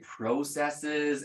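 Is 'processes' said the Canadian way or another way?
Canadian. Processes is said the Canadian way. "I know my Canadians, you want to say processes"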